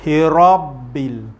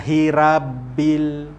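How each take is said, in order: First: The r sound is heavy and thick. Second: The r sound is light and thin. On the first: The speaker calls it right. "ra ra dia jadi tebal" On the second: The speaker calls it wrong. "kita tak baca hirabil"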